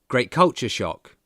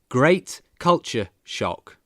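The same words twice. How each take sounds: First: It is said fast and connected. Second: It is said slowly and carefully.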